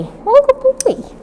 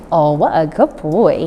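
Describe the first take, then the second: First: Put-on What a good boy squeaked very high; high praise. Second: Said in the usual way. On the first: Shown as a demonstration. Trainer praising the puppy, very high pitched. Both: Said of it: "the higher pitched, the better".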